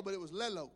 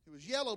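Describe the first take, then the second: First: "lelo" with an L in place of the Y of yellow; toddler's mispronunciation. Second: Said in the usual way. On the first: Retold or imitated. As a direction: say "lelo" the way a small child says yellow. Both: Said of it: "Lauren's word was lelo".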